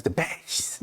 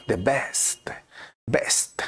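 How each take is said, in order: First: "the best" with the final T dropped. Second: "The best, best" with the final T sounded; correct English pronunciation. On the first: Retold or imitated. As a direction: say "best" as "bes", softly. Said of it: "y algunos latinos". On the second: Shown as a demonstration. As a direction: finish "best" on a clear ST. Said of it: "falta la T o algo".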